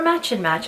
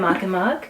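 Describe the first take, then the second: First: The name ends in a ch sound. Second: The name ends in a hard k sound. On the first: "I don't know if they pronounce them as Match and Match" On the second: "I always thought it was Mach and Mach"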